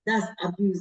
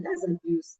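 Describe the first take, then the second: First: Said in the usual way. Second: Raised high with a rising end on "That's abuse"; high questioning take. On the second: Shown as a demonstration.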